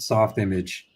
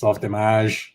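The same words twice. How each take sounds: First: Image is said like the plain English word. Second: Image ends like French fromage, stressed at the end. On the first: It sounds like a slick tech product. The speaker calls it wrong. "sounds very Silicon Valley... software and image" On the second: It is the original pronunciation used by true animators. The speaker calls it right. "like fromage"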